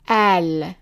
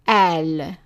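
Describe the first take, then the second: First: The word begins with a glottal stop. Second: The same.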